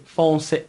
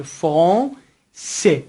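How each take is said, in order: First: Said in the usual way. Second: فرانسه very slow, split before final se; slow teacher's French فرانسه in parts; syllable-by-syllable demo. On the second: Shown as a demonstration. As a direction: draw out the nasal vowel in فرانسه, then se.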